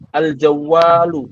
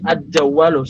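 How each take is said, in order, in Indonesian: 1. Artikel tetap mempertahankan bunyi L yang jelas. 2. L pada artikel berubah menjadi bunyi D.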